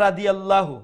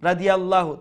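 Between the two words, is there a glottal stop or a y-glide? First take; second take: glottal stop; glottal stop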